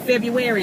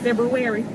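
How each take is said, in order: First: The word is said without its first R sound. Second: The word is said with its first R sound. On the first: The speaker calls it wrong. "when the girls say February" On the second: The speaker calls it right. "instead of February"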